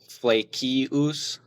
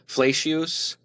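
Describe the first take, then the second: First: The name is pronounced in German style. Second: The name is pronounced in church Latin style. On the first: "the Germanized version" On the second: "the uh, Latin ecclesiastical way to pronounce it"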